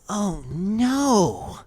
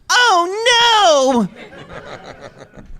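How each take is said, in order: First: It is said softly with sad, sincere feeling. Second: It is screamed loudly as if in agony. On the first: "a heartfelt one" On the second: "screaming in agony one"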